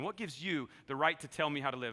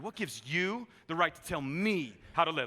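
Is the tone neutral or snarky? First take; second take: neutral; snarky. First: It is said in a plain, neutral tone. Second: It is said in a snarky, mocking tone.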